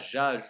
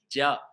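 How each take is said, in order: First: It starts with a soft 'zh' sound. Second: It starts with a hard 'dj' sound. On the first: The speaker calls it wrong. "On ne dit pas Ja" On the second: The speaker calls it right. "Mais ils prononçaient Dja"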